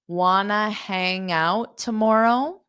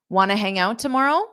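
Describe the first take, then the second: First: The question is spoken slowly. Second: The question is spoken quickly. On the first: "I'll say it slow" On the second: "So now I'll say it fast"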